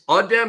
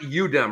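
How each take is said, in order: First: The first vowel is an open 'ah' sound. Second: The first vowel is a short 'uh' sound. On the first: The speaker calls it right. "so it's Adem" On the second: The speaker calls it wrong. "It's not Udem"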